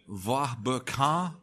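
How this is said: The name is said in a French way. This is how French speakers say it. "in French, it's something like"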